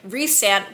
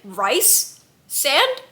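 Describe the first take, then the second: First: The first syllable sounds like 'reese'. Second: The first syllable sounds like 'rice'. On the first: This is how the speaker has always said it. "In my brain, it's always been Reese sand" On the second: This is how other people say it. "people have been saying rice sand"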